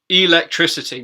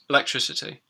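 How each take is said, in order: First: The first vowel is fully pronounced. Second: The first vowel is reduced to a schwa. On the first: "the way you've taught it" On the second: "in normal speech, it just come out as electricity... that schwa sound"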